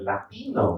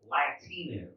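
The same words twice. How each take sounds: First: The word is said with a Spanish accent. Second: The word is said with an English accent. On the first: The speaker calls it wrong. "how do you just like mount and dismount a whole ethnicity from only a word?" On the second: The speaker calls it right. "That's how it's pronounced"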